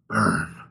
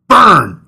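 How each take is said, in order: First: The word is said quietly and flatly. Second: The word is shouted loudly.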